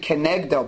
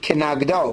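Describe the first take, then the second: First: The vowel after the n sounds like 'e'. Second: The vowel after the n sounds like 'a'. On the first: This is the traditional way the word is read aloud. "So we pronounce it Kenegdo" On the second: This is how the unvowelled written word could be read. "the way it could be pronounced is Kenagdo"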